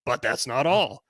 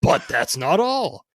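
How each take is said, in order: First: Quick barker teaser line; carnival barker. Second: Slow, loud drawn-out barker reveal; carnival barker. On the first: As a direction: toss it off like a huckster. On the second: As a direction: stretch it out for the big reveal. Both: Acted. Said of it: "read this in sort of a carnival barker type voice".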